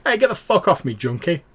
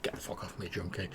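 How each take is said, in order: First: High, loud furious yell at a beggar; angry shout. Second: Soft, breathless mock yell, barely voiced; retold shout, said under breath. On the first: Acted. Stranger yelling at a junkie who touched him, furious shout. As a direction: bark it at the junkie who grabbed you. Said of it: "you hear a voice go". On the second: Game master retelling the stranger's shove, hushed mock shout. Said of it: "like, shouted, like".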